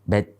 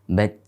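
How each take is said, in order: Both takes have the same delivery.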